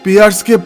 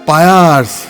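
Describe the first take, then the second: First: The first vowel sounds like ee. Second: The first vowel sounds like eye. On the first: This is the usual pronunciation. "তাই শুধু জিজ্ঞেস করেছিলাম ও উচ্চারণগুলি কি ঠিক" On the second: This is how the teacher says it. "পিয়ার্সকে পায়ার্স"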